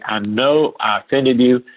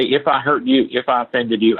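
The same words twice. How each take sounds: First: Slow, deliberate stress on "know"; unhedged admission. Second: Said in the usual way. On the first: Shown as a demonstration. Apologizing to an offended client, slow and firm with weight on "know". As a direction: draw out "know" firmly, owning the offence. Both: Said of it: "I don't hedge it".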